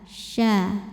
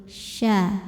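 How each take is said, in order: Both takes have the same delivery.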